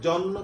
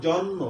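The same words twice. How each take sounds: The two takes are said the same way.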